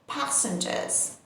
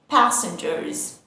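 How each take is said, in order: First: The R sound is left out. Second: The R sound is pronounced.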